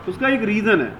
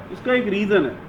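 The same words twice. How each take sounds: The two takes are said the same way.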